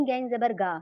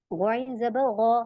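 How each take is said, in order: First: गा with a plain hard g and open aa; thin wrong ga. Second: गौ as a thick, throaty gho; heavy ghain. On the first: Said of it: "इसे ऐसे नहीं पढ़ेंगे". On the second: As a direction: slowly spell गाइन जबर गौ with the back of the tongue raised. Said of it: "अब आप इसे ऐसे नहीं पढ़ेंगे". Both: Shown as a demonstration.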